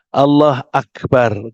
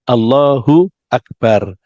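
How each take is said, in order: First: Allah has no u vowel before Akbar. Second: Allah ends with an u vowel before Akbar. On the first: The speaker calls it wrong. "kalau ada orang menyederhanakan Allah Akbar" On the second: The speaker calls it right. "Yang benar aslinya Allahu Akbar"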